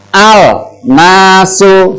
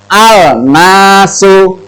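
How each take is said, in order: Both takes have the same delivery.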